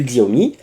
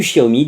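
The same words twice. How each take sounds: First: Xiaomi opened with a "gz" sound; prononciation française. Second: Xiaomi opened with a "sh" sound; prononciation chinoise. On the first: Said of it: "qui préfèrent la prononciation française". (Xiaomi dit à la française, avec « gz ») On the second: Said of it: "la vraie prononciation chinoise". (Xiaomi dit à la chinoise, avec « ch ») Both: Shown as a demonstration.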